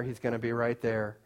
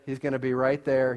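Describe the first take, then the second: First: Much softer, a near-hushed repeat; dropping softer. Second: Said in the usual way. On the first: Acted. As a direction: let it fall away softly. Repeating the line, fading.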